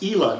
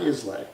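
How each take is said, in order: First: The name is said the local Scottish way. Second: The name is said the way it is spelled. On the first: This is what the islanders call it. The speaker calls it right. "So it's Ela" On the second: This is how outsiders would normally read it. The speaker calls it wrong. "not Islay"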